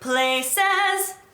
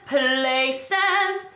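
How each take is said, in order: First: The L sound is plain and ordinary. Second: The L sound is strongly exaggerated. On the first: "instead of places" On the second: "over-exaggerated L on"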